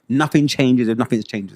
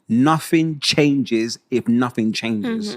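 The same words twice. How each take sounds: First: The phrase is said at a normal speaking pace. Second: The phrase is said slowly and deliberately.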